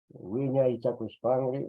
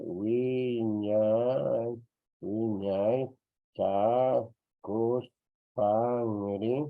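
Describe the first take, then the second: First: Said in the usual way. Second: "Wiñay Chacuspangri" very slowly, each syllable held long; teacher's slow dictation of "Wiñay Chacuspangri"; drawn-out syllables. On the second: Shown as a demonstration. Teacher sounds word out slowly.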